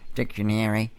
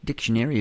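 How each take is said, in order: First: It is said in a New Zealand accent. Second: It is said in an American accent.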